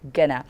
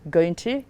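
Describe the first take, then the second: First: The words are blended into one short word. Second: Both words are said fully and separately.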